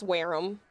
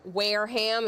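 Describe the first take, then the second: First: Wareham with silent H, WAIR-um; right Wareham. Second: Wareham with a full H, WAIR-ham; wrong Wareham. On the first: Teaching viewers the local way, Wareham as WAIR-um. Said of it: "a soft H with all of these". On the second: Showing viewers the wrong way, Wareham with the H. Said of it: "It's not". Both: Shown as a demonstration.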